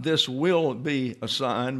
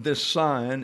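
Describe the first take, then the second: First: "This will be a sign" said slowly, rising on will; wrong reading with will. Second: "This sign" said short and plain, weight on sign; the right reading. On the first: Teacher contrasting the standard translation, slow and stressing will. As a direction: lean on will as the rejected reading. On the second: Teacher giving the Greek reading, firm on sign. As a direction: drop the verb and land on sign. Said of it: "is the way it reads in the text". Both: Shown as a demonstration.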